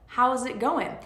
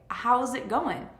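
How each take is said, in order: The two takes are said the same way.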